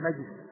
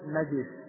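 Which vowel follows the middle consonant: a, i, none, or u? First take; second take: none; i. First: The middle consonant has no vowel after it. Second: The middle consonant is followed by an i vowel. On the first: "ويجوز السكون" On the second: "ويجوز الكسر"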